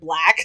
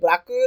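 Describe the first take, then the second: First: It is said with an English pronunciation. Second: It is said with a Japanese pronunciation. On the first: This is how the foreign speaker said it. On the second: This is the expected local pronunciation. "They didn't say blacku"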